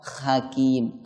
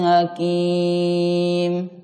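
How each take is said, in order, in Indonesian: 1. Bunyi pertamanya kh yang serak, dari tenggorokan. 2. Bunyi pertamanya h biasa yang lembut. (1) "Kalau dibaca huruf kha ada bunyi ngoroknya sedikit" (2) "Atau dibaca ha"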